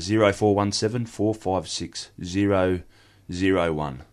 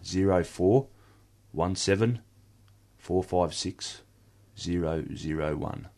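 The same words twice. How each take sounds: First: The numbers are read at a quick pace. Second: The numbers are read slowly, in small groups.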